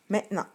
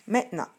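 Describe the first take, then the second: The two takes are said the same way.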